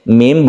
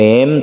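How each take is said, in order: First: The vowel is a long 'ee' sound. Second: The vowel is an 'eh' sound. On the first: The speaker calls it right. "tapi mim membentuk huruf i" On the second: The speaker calls it wrong. "Mim bukan mem"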